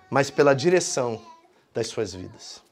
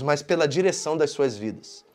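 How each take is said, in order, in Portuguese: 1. A frase é falada muito devagar. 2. A frase é falada em ritmo normal.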